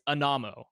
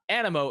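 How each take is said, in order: First: The middle vowel sounds like 'uh'. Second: The middle vowel sounds like 'ih'. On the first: The speaker calls it right. "technically this is the pronunciation" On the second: The speaker calls it wrong. "It's not Animo"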